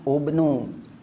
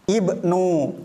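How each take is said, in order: First: The word begins with an 'u' vowel. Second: The word begins with an 'i' vowel. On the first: The speaker calls it wrong. "Kalau diharokati dhammah atau fathah, mereka kesusahan" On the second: The speaker calls it right. "hamzah wasol dibaca kasrah"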